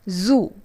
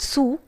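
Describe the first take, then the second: First: The word begins with a Z sound. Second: The word begins with an S sound. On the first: The speaker calls it right. "It's not Sue but Zoo" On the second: The speaker calls it wrong. "Zoo is mispronounced as Sue"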